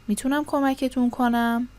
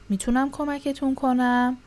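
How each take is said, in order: Both takes have the same delivery.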